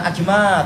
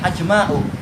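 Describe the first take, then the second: First: The final vowel is short with no glottal stop. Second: The final vowel is long, ending in a glottal stop. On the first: The speaker calls it wrong. "bukan ajma" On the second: The speaker calls it right.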